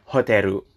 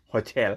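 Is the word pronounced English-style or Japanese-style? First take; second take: Japanese-style; English-style. First: It is said Japanese-style ending in -ru. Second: It is said English-style with a final l. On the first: "Kalau mereka bilang hoteru" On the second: "Kita bilang kalau bahasa Inggris hotel"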